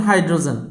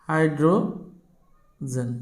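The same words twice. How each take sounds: First: Said in the usual way. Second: hydrogen stretched out very slowly with a break before জেন; slow dictation. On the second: Real, not acted. Teacher spelling out the first example for students, slow dictation. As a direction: draw out hydrogen in two long parts. Dictates word while writing it.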